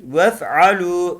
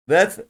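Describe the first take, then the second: First: "vef'alu" with a short e in the first syllable; short "vef", long final u in "vef'alu"; short first vowel. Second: "vef" with a long, dragged e; wrongly lengthened vowel. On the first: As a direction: go straight to the f in "vef'alu". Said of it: "Uzatmıyoruz". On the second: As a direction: stretch the e in "vef" too far. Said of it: "vef değil". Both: Shown as a demonstration.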